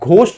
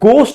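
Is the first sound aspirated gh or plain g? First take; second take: aspirated gh; plain g. First: The word starts with an aspirated gh sound. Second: The word starts with a plain g sound. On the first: The speaker calls it wrong. "घोस्ट नहीं पढ़ते हैं" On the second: The speaker calls it right. "यहां पे हम गोस्ट इसको पढ़ते हैं"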